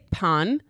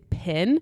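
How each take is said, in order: First: The surname is said with a French nasal vowel. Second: The surname is said with an English short vowel. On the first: "her name is French, and I've heard people say Pan" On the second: "like Americans or like English speaking people would say Pin"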